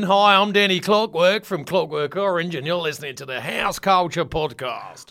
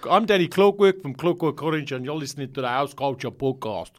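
First: It is said in an Australian accent. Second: It is said in a South African accent.

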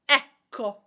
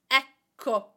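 The two takes are said the same way.

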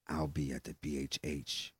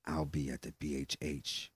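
First: It is read in a put-on, sensual voice. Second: It is read in a put-on, sensual voice.

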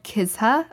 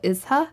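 First: The word begins with a k sound. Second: The word begins without a k sound. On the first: "It's called kizha" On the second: "local people don't pronounce the kuh, so they call it izha"

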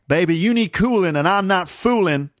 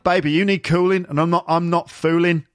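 First: It is said in an American accent. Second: It is said in a Birmingham accent. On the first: "He wouldn't say" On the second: "That's more of a Birmingham accent"

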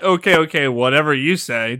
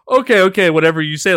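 First: It sounds dismissive and exasperated. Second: It sounds eager and fully committed.

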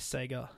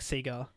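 First: Sega is said the way Americans say it. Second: Sega is said in the speaker's own local way. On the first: "Americans will say Sega" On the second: "we usually say"

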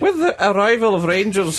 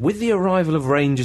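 First: It is said in a Scottish accent. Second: It is said without a Scottish accent.

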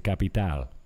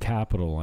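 First: It is said with a Spanish accent. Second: It is said with an American English accent.

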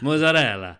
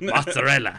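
First: It is pronounced the Italian way. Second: It is pronounced in a Mayo accent.

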